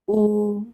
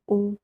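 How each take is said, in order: First: The vowel is held twice as long. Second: The vowel is said short. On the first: "फिर दीर्घ में उ" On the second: "ह्रस्व में उ बोलेंगे हम"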